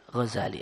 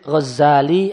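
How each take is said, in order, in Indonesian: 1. Bunyi z tunggal dan dibaca pendek. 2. Bunyi z dibaca ganda dan panjang. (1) "tanpa tasdid" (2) "pakai tasdid"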